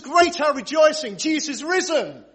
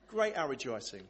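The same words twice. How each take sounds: First: High, loud, rousing rejoicing; exultant rallying cry; jubilant proclamation. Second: Soft, unenthusiastic rejoicing; underwhelmed. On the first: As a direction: proclaim it to whip up the crowd. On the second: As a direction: say it as if barely bothered. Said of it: "that underwhelming response". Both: Shown as a demonstration.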